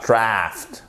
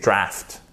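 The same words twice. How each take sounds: First: "draft" with the A drawn out long; wrong long A. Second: "draft" with a short, quick A. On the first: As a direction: stretch the vowel of "draft" as a mistaken take. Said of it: "c'est un A court, c'est pas". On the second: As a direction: keep the vowel of "draft" short. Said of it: "Et ça, c'est un A court". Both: Shown as a demonstration.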